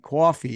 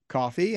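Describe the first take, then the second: First: It is said in a New York accent. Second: It is said in a plain, neutral accent. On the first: "Like I don't sound like a New Yorker, right? Like I don't go like" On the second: "I say coffee and I'm walking and normal stuff"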